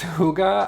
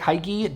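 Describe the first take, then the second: First: It is given a Danish-sounding pronunciation. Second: It is read out literally, English style. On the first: The speaker calls it right. "It's hygge, I think" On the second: The speaker calls it wrong. "It looks like hygge, don't make that mistake"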